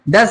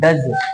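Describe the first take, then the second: First: The word ends with an s sound. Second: The word ends with a z sound. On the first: The speaker calls it wrong. "डस नहीं" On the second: The speaker calls it right. "जे का sound आएगा पीछे"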